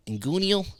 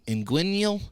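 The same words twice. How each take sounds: First: "inguinal" tried as in-GOO-nee-ul; unsure pronunciation. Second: "inguinal" tried as in-GWIN-yul; unsure stab at "inguinal" as in-GWIN-yul; second pronunciation attempt. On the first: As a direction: sound out "inguinal" with an oo in the middle. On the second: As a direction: sound out "inguinal" with a gwin in the middle. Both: Real, not acted. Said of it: "I don't know how to say it".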